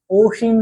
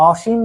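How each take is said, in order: First: অসীম begun with round "o"; rounded "o" start. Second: অসীম begun with open "aw"; open "aw" start. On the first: Teacher showing what we don't say, অসীম with round "o". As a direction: say অসীম as "oshim". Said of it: "অসীম বলি না". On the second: Teacher showing what we do say, অসীম with open "aw". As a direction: say অসীম as "awshim". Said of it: "অসীম বলি". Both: Shown as a demonstration.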